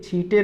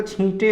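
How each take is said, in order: First: छींटे without nasal, "chhite"; wrong छींटे. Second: छींटे with nasal vowel, "chhinte"; correct छींटे. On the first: Teacher rejecting the error, छींटे as "chhite". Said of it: "नहीं होता". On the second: Teacher giving correct form, छींटे as "chhinte". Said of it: "होता है". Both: Shown as a demonstration.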